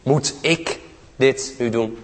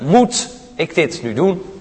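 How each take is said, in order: First: The stress falls on the word ik. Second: The stress falls on the word moet.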